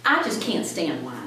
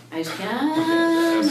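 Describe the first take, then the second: First: Said in the usual way. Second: High, slow, drawn-out whine; mock whimper of a kid who won't; whiny kid voice. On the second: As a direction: stretch it out like a whining child.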